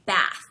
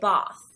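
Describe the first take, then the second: First: It is said in an American accent. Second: It is said in a British accent. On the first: "we say bath" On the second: "in British English, they would say bath"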